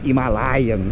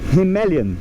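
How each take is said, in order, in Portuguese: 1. A tônica está na sílaba 'lai'. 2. A tônica está na sílaba 'ma'. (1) "Himalayan em português" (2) "a sílaba tônica é o ma"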